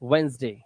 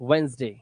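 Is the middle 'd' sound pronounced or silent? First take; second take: silent; silent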